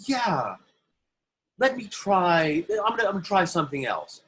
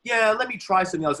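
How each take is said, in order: First: Fussy actor. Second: Much higher and louder, quick and snotty; entitled actor. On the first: Actor on set asking the director for another take, high and fussy. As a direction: play the precious actor who wants one more go. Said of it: "an actor might go". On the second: Self-important actor demanding another take from Scorsese, loud and snotty. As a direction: sneer it like a spoiled star. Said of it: "could have been a real dick and go". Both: Retold or imitated.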